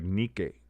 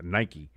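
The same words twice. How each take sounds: First: The name is said in an older, non-American way. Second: The name is said in the usual American way. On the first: This is the original form of the name. "initially pronounced like Nike or Nika" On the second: This is the later Americanized form. "they Americanized everything, and so it became Nike"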